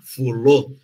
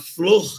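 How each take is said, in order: First: A vowel separates the f and l. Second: The f and l form one cluster. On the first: "eles vão falar fulô" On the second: "Ao invés de falar flor"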